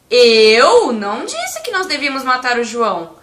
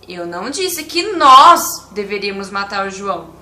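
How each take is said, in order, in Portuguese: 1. A palavra 'eu' é enfatizada. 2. A palavra 'nós' é enfatizada. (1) "Se eu enfatizar a palavra eu" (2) "Se eu enfatizar a, a palavra nós"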